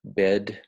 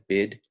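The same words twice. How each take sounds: First: Said in the usual way. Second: Bed said like 'bid'; Australian bid for bed; Aussie bed. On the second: Shown as a demonstration. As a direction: raise the vowel of bed to 'bid'. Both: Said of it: "sounds a little bit more like bid".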